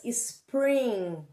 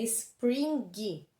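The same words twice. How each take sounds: First: "spring" ending on a drawn-out nasal, G silent. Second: "spring" with a hard G sounded at the end; spring as spelt. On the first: Teacher showing pupils how it is spoken, final G silent. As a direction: stretch "spring" and leave the G mute. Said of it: "Eles não pronunciam a letra G". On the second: Teacher showing the spelling to pupils, final G pronounced hard. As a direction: read "spring" letter by letter, ending in "gui". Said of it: "se escrever spring". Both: Shown as a demonstration.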